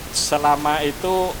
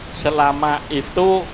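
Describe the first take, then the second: No difference in how they are said.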